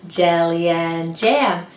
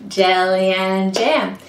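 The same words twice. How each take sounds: No difference in how they are said.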